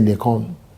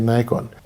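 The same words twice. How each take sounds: First: Nikon is pronounced the English way. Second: Nikon is pronounced the American way. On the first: "if you want to pronounce it the English way, they say Nikon" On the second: "Americans say Nikon"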